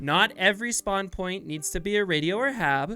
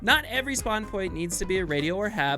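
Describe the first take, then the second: First: It is said more slowly. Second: It is said at a normal speed.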